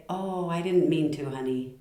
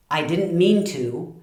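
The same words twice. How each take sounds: First: Soft, tender reassurance; loving apology. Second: Slow, defensive excuse; not so nice. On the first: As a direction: soothe a spouse, voice easing down. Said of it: "the tone of voice changes everything". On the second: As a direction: push it out as a grudging excuse. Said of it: "doesn't sound nearly as nice". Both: Shown as a demonstration.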